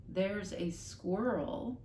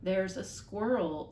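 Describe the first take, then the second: First: Dazed slow echo; father echoing the mother, slowly; slow bewildered repeat. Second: Slow, deliberate, pointing at each word; mother speaking slowly to the father. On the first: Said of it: "repeated her father". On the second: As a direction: spell it out word by word. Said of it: "speaking more slowly now". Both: Acted.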